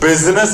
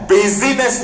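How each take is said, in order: First: The middle i sound is silent. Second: The middle i sound is pronounced. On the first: The speaker calls it right. "आई silent है। बिजनेस है" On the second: The speaker calls it wrong. "बिजीनेस नहीं है।"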